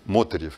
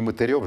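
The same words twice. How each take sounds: First: The stress falls on the first syllable. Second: The stress falls on a later syllable. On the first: The speaker calls it right. "я ставлю, по крайней мере, ударение на первый слог" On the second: The speaker calls it wrong. "Не Мотырев же, я надеюсь"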